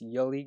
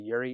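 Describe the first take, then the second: First: The middle consonant is an L sound. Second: The middle consonant is an R sound. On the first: The speaker calls it right. "It's Yuli Gurriel" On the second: The speaker calls it wrong. "I always pronounce that name wrong. I always say Yuri"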